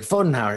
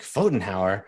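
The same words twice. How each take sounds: First: "Fotenhauer" stated with a firm falling tune; confident confirmation. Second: "Fotenhauer?" asked with a doubtful upward tune; puzzled question. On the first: Cesar vouches for the stranger to Ana, sure of himself. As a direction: confirm "Fotenhauer" like it settles things. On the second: Ana echoes the mercenary's odd word, questioning. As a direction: repeat "Fotenhauer" back as if it makes no sense. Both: Acted.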